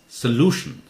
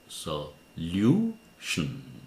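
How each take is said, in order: First: The middle syllable is said like 'loo'. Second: The middle syllable is said like 'lyoo'. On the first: The speaker calls it right. "It's solution. L-U almost always takes lu sound" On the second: The speaker calls it wrong. "we were taught this is pronounced solution"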